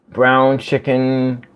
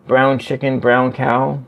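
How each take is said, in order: First: Slow, careful "Brown chicken"; "Brown chicken" said slowly and deliberately; slow tongue twister. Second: Said in the usual way. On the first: Shown as a demonstration. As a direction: drag out "Brown chicken" as if testing it. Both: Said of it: "Say it fast".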